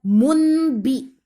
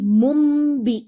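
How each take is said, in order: First: An N sound is heard before the B. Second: An M sound is heard before the B. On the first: The speaker calls it wrong. "Jadi bukan munbi" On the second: The speaker calls it right. "tapi mumbi"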